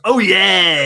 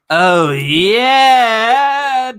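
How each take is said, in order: First: It imitates the Kool-Aid Man's loud shout. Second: It is said in a breathy, erotic moan.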